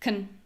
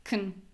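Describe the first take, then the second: First: The vowel is reduced, short and low-pitched. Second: The same.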